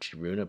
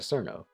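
First: The name starts with a 'ch' sound and has three syllables. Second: The name starts with an 's' sound and has two syllables. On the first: It keeps the full Japanese form. "the entire pronunciation of Chiruno" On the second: It follows the English spelling and ignores the name's origin. "Instead of going all the way to Cerno"

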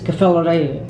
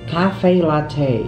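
First: The name ends with a 'ray' sound. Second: The name ends with a 'tay' sound. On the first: The speaker calls it wrong. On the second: The speaker calls it right.

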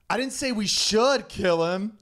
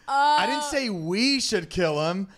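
First: The stress falls on the word 'should'. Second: The stress falls on the word 'we'.

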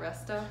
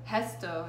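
First: The first sound is an ordinary r sound. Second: The first sound is a breathy h-like sound. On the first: The speaker calls it wrong. "not resto" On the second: The speaker calls it right. "everything with R in Portuguese is kind of sounds like huh"

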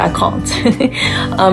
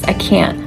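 First: The word is said in a British English accent. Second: The word is said in an American English accent. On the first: The speaker calls it wrong. "I definitely don't pronounce it in the British English way. I don't say I can't" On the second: The speaker calls it right. "In American English, of course, it's I can't"

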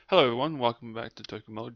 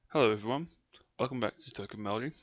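First: It is said fast. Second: It is said slowly.

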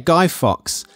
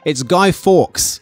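First: The surname sounds like the word fox. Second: The surname does not sound like fox. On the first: The speaker calls it wrong. "she was like, yeah, Guy Fawkes ... it's not half person, half fox" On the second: The speaker calls it right. "what are you talking about? It's Guy Fawkes"

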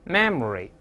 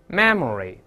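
Both takes have the same delivery.

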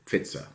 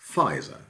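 First: The name is pronounced the German way. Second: The name is pronounced the English way. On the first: "this is how Germans would pronounce it today" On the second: "spelling pronunciation, of course, in the English-speaking world"

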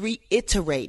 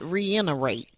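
First: The T sound is pronounced clearly. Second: The T sound is softened or dropped. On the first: The speaker calls it right. "It's reiterate" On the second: The speaker calls it wrong. "not reiterate"

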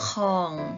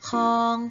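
First: The syllable is said with a low tone. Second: The syllable is said with a mid tone. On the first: "เติมไม้เอกลงไปจะเป็นของ" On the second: "เสียงสามัญจะเป็นคำว่าคอง"

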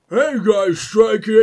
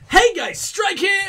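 First: It is said in a deep voice. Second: It is said in a higher voice.

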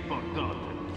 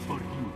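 First: The word ends with an 'o' vowel. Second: The word ends with an 'iu' vowel. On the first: The speaker calls it wrong. "Non si dice Bordot" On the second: The speaker calls it right. "si dice Bordiù"

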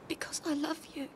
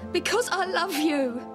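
First: It is said quietly. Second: It is said loudly.

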